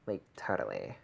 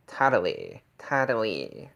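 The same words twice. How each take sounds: First: Said in the usual way. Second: "Totally" with a bright, fronted first vowel, like "tattally"; "Totally" emphatic, vowels shifted bright; brighter vowels. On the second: Shown as a demonstration. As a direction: push the vowels of "Totally" forward. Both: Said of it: "shifting the vowels brighter".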